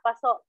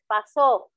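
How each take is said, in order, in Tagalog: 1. May diin ang huling pantig, at may glottal stop sa dulo. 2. May diin ang huling pantig at bukas ang dulo. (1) "number three is maragsa" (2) "Sa ikalawa is mabilis"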